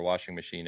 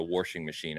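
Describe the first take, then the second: First: Said in the usual way. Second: "washing" with an added r, warshing; r-coloured "washing machine"; Midwestern warshing. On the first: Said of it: "he's called it a washing machine". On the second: Retold or imitated. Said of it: "if you've never heard that over here".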